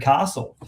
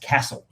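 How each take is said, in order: First: Castle is said the general Australian way. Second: Castle is said the traditional Victorian way. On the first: "universally across Australia pronounced as the castle" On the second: "people in most of Victoria ... pronounce that word as castle, which I think is at odds with ... the rest of Australia"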